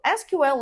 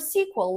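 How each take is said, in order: First: Each letter is said separately. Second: It is said as one word, sequel. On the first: "saying each letter separately" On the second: "like a movie sequel"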